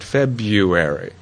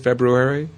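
First: The sound after the b is a y. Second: The sound after the b is an r. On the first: The word is said the way most people say it. "many, many people pronounce it February" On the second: The word is said the way it is spelled. "being a nerd, I usually pronounce it February"

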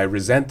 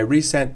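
First: The first vowel is a short reduced sound. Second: The first vowel is a full 'ee' sound. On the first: Someone feels bitter about something. "I resent the fact that" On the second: Something was sent again. "I resent that email"

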